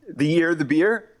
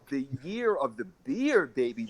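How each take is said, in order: First: It is said hesitantly, like a question. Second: It is said confidently and with energy.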